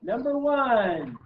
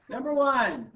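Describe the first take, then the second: First: Big slow announcer call, higher and louder; game show host voice. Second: Higher, louder quiz-show announcement; game show host voice. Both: Shown as a demonstration. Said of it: "That's my game show host voice".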